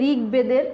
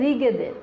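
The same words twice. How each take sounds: First: A 'b' sound is said after the 'g'. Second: No 'b' sound is said after the 'g'. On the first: The speaker calls it wrong. "অনেকে ঋগ্বেদের উচ্চারণ করে" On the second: The speaker calls it right. "আসলে এটা হবে হচ্ছে ঋগ্বেদের। এই ব অন্তস্থ ব, যায়ের উচ্চারণ নাই।"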